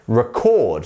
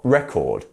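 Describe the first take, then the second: First: The stress is on the second syllable. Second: The stress is on the first syllable. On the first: The speaker calls it right. "it's the second one" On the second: The speaker calls it wrong. "not record"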